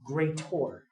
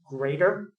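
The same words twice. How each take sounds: First: The last syllable is said as a clear 'or'. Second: The last syllable is a plain weak 'er'. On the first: "say it like greater. Say it that way. Greater is an or" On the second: "Instead of saying like greater"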